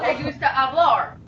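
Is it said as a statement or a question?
statement. It is said as a statement.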